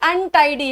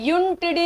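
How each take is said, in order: First: The word begins with an 'uh' vowel sound. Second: The word begins with a 'yoo' sound. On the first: The speaker calls it right. "क्योंकि अनटाइडी है" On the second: The speaker calls it wrong. "यूनटिडी नहीं है"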